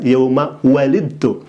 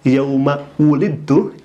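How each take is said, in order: First: The second word begins with a 'wa' sound. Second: The second word begins with a 'wu' sound. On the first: Parents. The speaker calls it wrong. "ini malah dibaca" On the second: The one who was born. The speaker calls it right. "Yang seharusnya dibaca"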